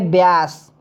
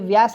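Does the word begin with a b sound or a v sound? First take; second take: b sound; v sound. First: The word begins with a b sound. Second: The word begins with a v sound. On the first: This is the Awadhi dialect form. "अवधि में कहेंगे व्यास" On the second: This is the standard Hindi form. "व्यास को ये व्यास नहीं कहेंगे"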